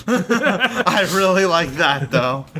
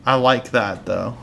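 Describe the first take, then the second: First: Slow, laughing through the words. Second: Said in the usual way. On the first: Real, not acted. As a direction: say it while laughing, drawn out.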